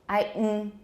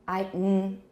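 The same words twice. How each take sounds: No difference in how they are said.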